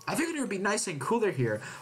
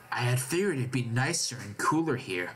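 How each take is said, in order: First: It is said in a normal voice. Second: It is said in a put-on voice.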